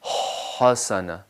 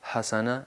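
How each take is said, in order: First: The h is a strong, throaty sound. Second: The h is a light, plain breathy sound. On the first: The speaker calls it right. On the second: The speaker calls it wrong.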